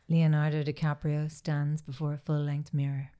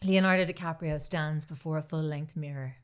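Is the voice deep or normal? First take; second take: deep; normal. First: It is said in a deeper, slower voice. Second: It is said in a normal voice.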